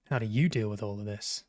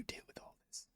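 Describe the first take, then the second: First: Said in the usual way. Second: Fast breathy whisper of the line. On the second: Shown as a demonstration. Player whispering the character's line before he says it. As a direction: hush it like a secret. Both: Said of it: "I knew he was gonna say it like that".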